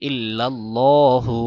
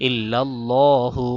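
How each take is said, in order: Both takes have the same delivery.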